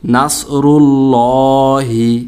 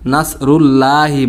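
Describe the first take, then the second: First: The L in Allah is heavy and full. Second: The L in Allah is light and thin. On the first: The speaker calls it right. "লামটাকে মোটা করে পোর করে মোটা করে পড়তে হবে" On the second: The speaker calls it wrong. "এখানে মস্ত বড় একটা আমরা ভুল করে থাকি"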